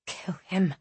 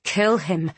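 First: Unvoiced whisper of the heart. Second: Said in the usual way. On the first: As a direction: breathe it with no voice. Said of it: "screamed her heart". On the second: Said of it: "roared her furious blood".

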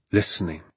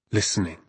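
The two takes are said the same way.

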